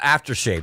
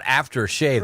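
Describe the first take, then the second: First: It is said as one word, stress on after. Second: It is said as two separate, evenly stressed words. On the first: It is a scented lotion for the face. The speaker calls it right. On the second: He shaved and then did something afterwards. The speaker calls it wrong.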